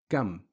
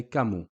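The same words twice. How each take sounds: First: "kam" closed on a plain M; just mm. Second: "kamu" with short u after M; dhamma on the M. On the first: Teacher explaining sukoon, stopped M. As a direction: end "kam" on mm, with no a, u or i. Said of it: "We're just saying mm". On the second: Teacher showing the dhamma case, final u. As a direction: open "kamu" into a second syllable mu. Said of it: "there is a dhammi on the meme". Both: Shown as a demonstration.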